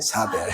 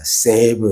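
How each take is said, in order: First: The vowel is read as a plain 'ah'. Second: The vowel is read as a gliding 'ay'. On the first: This is the continental European reading. "유럽 이런 계통들은 이제 사배였는데" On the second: This is the English reading. "영어가 비틀어 나왔어요. save 이렇게"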